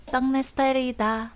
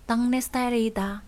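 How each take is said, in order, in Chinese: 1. 第一个音节以 ng 音结尾。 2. 第一个音节以 ng 音结尾。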